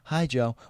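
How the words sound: It is said in an imitated, put-on voice.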